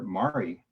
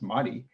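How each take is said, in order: First: The name is pronounced the English way. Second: The name is pronounced the Japanese way. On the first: This is what nearly everyone called her. "called her Mari, not the Japanese pronunciation" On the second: Only her mother and older aunt used this form. "the Japanese pronunciation, which is Madi"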